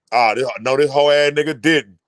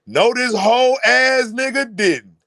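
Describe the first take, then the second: First: Low, muttered-to-himself mock disbelief; imitated disbelief. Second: Higher, slow, drawn-out mock outrage; mock outraged disbelief. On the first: Imitating a father told to shut up, low disbelief. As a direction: play the insulted father, pitched low. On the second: Imitating a father told to shut up, drawn-out outrage. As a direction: stretch out the insulted father's disbelief. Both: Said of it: "He looking like".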